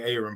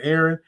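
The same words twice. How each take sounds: First: "Aaron" starting with a long AY, AY-ron; Southern pronunciation. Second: "Aaron" starting with a short E, AIR-un; standard pronunciation. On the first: Host showing the Southern way, "Aaron" as AY-run. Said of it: "when we say down here in the South". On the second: Host checking the viewer's name, "Aaron" as AIR-un. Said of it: "is it Aaron or is it Aaron". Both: Shown as a demonstration.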